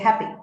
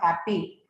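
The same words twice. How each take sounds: First: The final vowel is a shorter in-between E. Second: The final vowel is a full long E. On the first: The speaker calls it right. "You say happy" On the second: The speaker calls it wrong. "So it's not happy"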